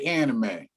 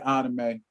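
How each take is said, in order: First: It is pronounced the American English way. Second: It is pronounced the Japanese way. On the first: "Americans say anime" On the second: "If I go over to Tokyo, I'll say anime"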